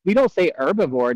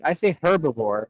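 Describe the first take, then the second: First: "herbivore" with the H dropped, starting on the vowel; silent H. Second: "herbivore" with an audible H at the start; sounded H. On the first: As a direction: say "herbivore" as "erbivore". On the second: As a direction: pronounce the H in "herbivore". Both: Shown as a demonstration.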